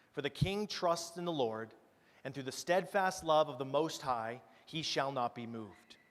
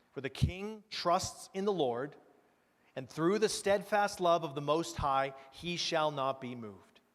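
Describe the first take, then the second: The two takes are said the same way.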